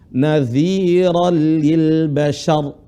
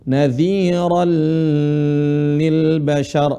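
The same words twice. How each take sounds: First: The vowels are kept short, not drawn out. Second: A vowel in the phrase is drawn out long. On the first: The speaker calls it right. "Tapi yang benar apa?" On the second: The speaker calls it wrong. "Tapi dipanjangin, ini yang salah"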